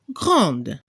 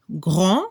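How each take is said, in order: First: GRANDE with the final d clearly heard; feminine French grande. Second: GRAND with a nasal vowel and silent final d; masculine French grand. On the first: French teacher showing Spanish speakers the feminine, GRANDE with audible d. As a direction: close GRANDE on a sounded d. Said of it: "se debe escuchar al femenino". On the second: French teacher showing Spanish speakers the masculine, GRAND with silent d. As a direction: say GRAND ending open on the nasal, no d. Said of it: "Para la pronunciación, la última consonante". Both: Shown as a demonstration.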